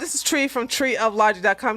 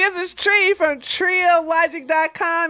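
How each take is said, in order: First: It is said without a smiling voice. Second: It is said with a smiling voice.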